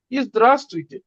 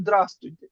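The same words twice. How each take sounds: First: Full ইজদ্রাস্তুইতে with the ই clearly sounded; proper pronunciation. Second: দ্রাস্তুইতে, clipped without the ই, quick and casual; casual Russian form. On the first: Teacher contrasts the proper form with the casual one. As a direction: carefully spell out ইজদ্রাস্তুইতে in full. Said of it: "এটার proper spelling হলো". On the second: Teacher shows how Russians really say it. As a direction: say দ্রাস্তুইতে the way Russians drop the start. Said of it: "রাশিয়ানরা কি বলে?". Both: Shown as a demonstration.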